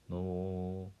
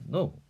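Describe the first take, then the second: First: It is said in a soft, cooing, encouraging tone. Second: It is said in a sharp, forbidding tone. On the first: The child is being encouraged. "encouraging 하는 어조로 no 이렇게 하고" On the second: The child is being forbidden. "no 이렇게 금지하듯이 하라는 거죠"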